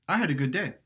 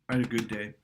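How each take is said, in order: First: It sounds moderate and neutral, with some push. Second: It sounds flat and down, with little push.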